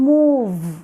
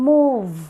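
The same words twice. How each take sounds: The two takes are said the same way.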